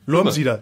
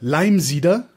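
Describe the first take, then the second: First: It is said in Bavarian dialect. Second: It is said in Standard German.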